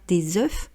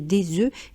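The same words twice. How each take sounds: First: A final F sound is pronounced. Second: No final F sound is pronounced. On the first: The speaker calls it wrong. "et non pas des œufs" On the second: The speaker calls it right. "Je me suis souvenu que je devais acheter des œufs"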